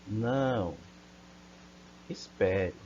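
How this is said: There is a pause between the two words. A refusal, then a request to wait. "vamos ver o sentido que ela tem com a vírgula"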